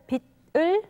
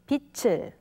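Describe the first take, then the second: First: The final consonant keeps its standalone sound. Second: The final consonant changes its sound before 을. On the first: The speaker calls it wrong. "instead of" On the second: The speaker calls it right. "we say"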